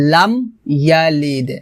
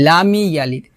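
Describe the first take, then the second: First: "লাম ইয়ালিদ" with m shut, then bounced d; closed m, separated. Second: "লামি ইয়ালিদ" run together with an extra "mi"; wrong added vowel. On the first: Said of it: "হবে". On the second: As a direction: join it as lamee-yalid. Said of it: "লামি ইয়ালিদ হবে না". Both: Shown as a demonstration.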